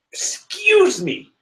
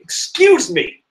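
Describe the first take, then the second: First: Even higher and slower, drawn-out "Excuse me."; even more indignant. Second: Much higher, slow and offended "Excuse me."; indignant. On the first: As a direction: stretch it, pure theatrical offence. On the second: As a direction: call them out, mock outrage. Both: Real, not acted. Indignant correction.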